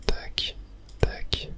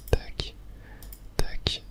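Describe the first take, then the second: No difference in how they are said.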